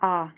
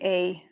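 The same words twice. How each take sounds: First: The vowel is one pure unchanging sound. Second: The vowel glides between two sounds. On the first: "this is A. It's just A. It's not A E" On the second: "the way you pronounce it is like A"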